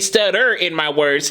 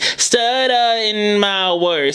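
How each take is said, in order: First: The R sound in stutter is pronounced. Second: The R sound in stutter is dropped. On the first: "She didn't say" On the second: "So the R color was taken out"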